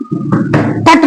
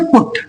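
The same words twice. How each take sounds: First: पट with a short "uh" vowel, like "putt"; पट, vowel as in "cut"; wrong reading of put. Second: पुट with a short rounded "oo" vowel; पुट, vowel as in "book"; correct reading of put. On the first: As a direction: say पट to rhyme with "but". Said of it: "पट नहीं पढ़ेंगे". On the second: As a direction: say पुट to rhyme with "foot". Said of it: "तो पढ़ेंगे पुट". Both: Shown as a demonstration.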